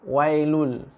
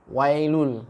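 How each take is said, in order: Both takes have the same delivery.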